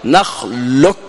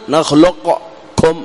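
First: نخلق said "نخلكّ", qaf merged into a doubled kaf; the correct blended reading; teacher giving the accepted pronunciation; right way. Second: Slow نخلقكم with the qaf fully pronounced before the kaf; teacher showing the reading not to use; wrong way. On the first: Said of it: "ما نقول نخلقكم". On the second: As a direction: spell out each letter as the mistake. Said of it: "لا، وإنما نقول". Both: Shown as a demonstration.

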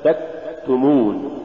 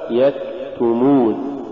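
First: تكتمون with the kaf stopped dead, no breath release; mispronounced kaf. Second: Said in the usual way. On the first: Shown as a demonstration. Teacher showing the error before the correct form, breathless kaf in تكتمون. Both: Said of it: "والصواب".

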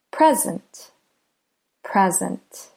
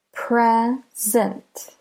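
First: Said in the usual way. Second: "Present" broken in two, PRE, pause, SENT; split into syllables. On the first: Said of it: "the first syllable is pre". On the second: Shown as a demonstration. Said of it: "so there are two syllables".

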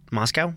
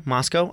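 First: "Moscow" ending like cow. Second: "Moscow" ending in -koh; long-o ending. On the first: Co-host checking how the town is said, "Moscow" rhyming with cow. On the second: Co-host checking how the town is said, "Moscow" ending in -koh. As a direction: ask "Moscow" to rhyme with go. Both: Shown as a demonstration. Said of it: "I've heard it both ways".

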